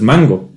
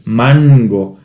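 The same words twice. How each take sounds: First: The n is reduced to a nasal vowel. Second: The n is fully pronounced before the g. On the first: This is the everyday pronunciation. "normalmente dices mango, mm, como nasal" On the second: This is the careful pronunciation. "si lo pronuncias perfectamente"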